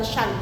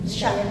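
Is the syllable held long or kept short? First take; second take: long; short. First: The syllable is held long and nasalized. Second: The syllable is stressed but kept short. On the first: The speaker calls it wrong. "bukan syan" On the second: The speaker calls it right. "cuma ditekan"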